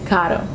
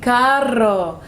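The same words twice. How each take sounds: First: The r is a short soft single tap. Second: The r is strongly rolled with a trill. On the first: The speaker calls it right. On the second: The speaker calls it wrong. "sometimes I want to show that I can roll my tongue"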